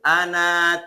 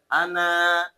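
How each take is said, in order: First: The final vowel is cut short. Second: The final vowel is held long. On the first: The speaker calls it right. "dibaca pendek" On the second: The speaker calls it wrong. "kalau fathah bertemu alif tajwidnya harusnya panjang"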